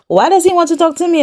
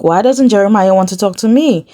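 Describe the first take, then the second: First: Mock whine. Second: Said in the usual way. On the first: Voicing Heather, mocking repeat.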